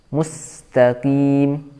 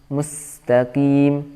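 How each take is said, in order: No difference in how they are said.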